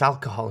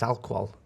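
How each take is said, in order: First: Said in the usual way. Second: Alcohol squashed into "alk-wol"; Wendy's mispronunciation. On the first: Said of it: "you mispronounce words". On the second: Retold or imitated. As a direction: say alcohol in two syllables, "alkwol". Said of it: "But Wendy says".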